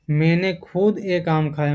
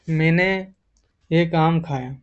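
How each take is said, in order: First: खुद leaned on, the line a little slow; stress on खुद. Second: Said in the usual way. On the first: Shown as a demonstration. Teacher demoing emphasis for students, stress on खुद. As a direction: press on खुद, slowing the words. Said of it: "अगर जोर डाल के बोल रहा हो कि". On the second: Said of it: "अब इसी को अगर जोर डाल के बोल रहा हो कि".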